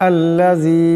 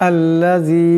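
The two takes are said the same way.

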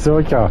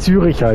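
First: The word is said with two syllables. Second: The word is said with three syllables. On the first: The speaker calls it right. "es heißt Zürcher" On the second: The speaker calls it wrong. "es heißt nicht Züricher"

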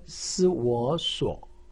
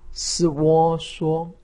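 First: The pitch dips low, then rises. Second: The pitch stays high and level. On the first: "三声" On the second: "一声"

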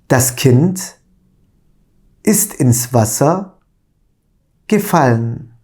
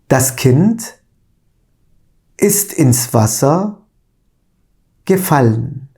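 No difference in how they are said.

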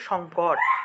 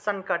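First: The middle nasal is not sounded like n. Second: The middle nasal is sounded like n. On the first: This is the everyday Bengali pronunciation. "বাংলায় বলি সংকট" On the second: This is the Sanskrit pronunciation. "সংস্কৃত আসলে সংকট, সংকট এইভাবে উচ্চারণটা আসবে"

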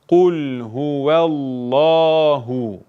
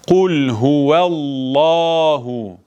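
The two takes are said the same way.

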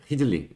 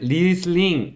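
First: The word begins with an h sound. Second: The word begins with an r sound.

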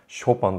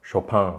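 First: The accent is at the front of the name. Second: The accent is at the end of the name. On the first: This is how it is said in Japan. The speaker calls it wrong. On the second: This is how it is said in France. The speaker calls it right.

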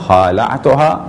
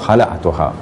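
First: The first vowel is long. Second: The first vowel is short. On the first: "हमने कहा हालातुहा, ये भी सही है" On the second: "बग़ैर अलिफ़ के यानी हलातुहा, ये भी सही है"

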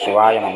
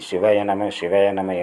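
First: The vowel after 'siv' is long. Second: The vowel after 'siv' is short. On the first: The speaker calls it wrong. "இதில் நெடில் வந்துடக்கூடாது. சிவாய நம என்று உச்சரிக்கக்கூடாது" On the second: The speaker calls it right. "நாம் உச்சரிப்பை சிவய நம என்று சொன்னால்"

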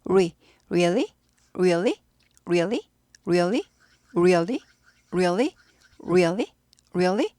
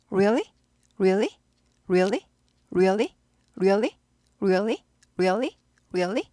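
No difference in how they are said.

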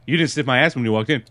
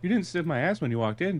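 First: The line is said in a harsh tone. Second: The line is said in a mild tone. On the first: This is the tone the man came off in. "You're saying it way more aggressive than he said it" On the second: This is not how the man actually said it. "He didn't say it like that, though. He didn't say"

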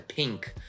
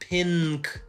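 First: The nasal is made at the back, like ng. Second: The nasal is a plain front n sound. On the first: The speaker calls it right. "это pink. Он происходит там сзади" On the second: The speaker calls it wrong. "Это не pink"

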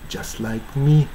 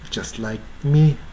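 Both takes have the same delivery.

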